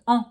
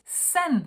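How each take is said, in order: First: "en" as one nasal vowel, N not sounded; French nasal en. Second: "sen" with a plain E and a sounded N; as written. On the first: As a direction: merge "en" into a nasal "on". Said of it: "when you get an E and an N". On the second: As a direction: say "sen" just as spelled. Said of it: "you pronounce it". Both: Shown as a demonstration.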